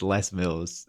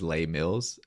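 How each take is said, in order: First: Les is said like the English first name. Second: Les is said like the French plural article. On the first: The name belongs to a man called Les Mills. The speaker calls it right. "they don't speak French down here. That's Les Mills" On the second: The name was taken to be a French phrase. The speaker calls it wrong. "I was pronouncing it as Les Mills, you know, as in like the plural"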